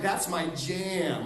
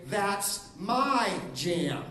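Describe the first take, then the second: First: Slow, grooving to a song; slow delight at a radio song; slow, enjoying that's my jam. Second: Slow, drawn out claim; slow protest over breakfast; slow, possessive that's my jam. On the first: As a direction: savour it like a favourite song. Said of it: "song on the radio". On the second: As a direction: claim it slowly like your food. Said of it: "breakfast example". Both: Shown as a demonstration.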